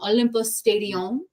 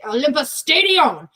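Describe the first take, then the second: First: It is said in a calm, neutral tone. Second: It is said in an angry, forceful tone.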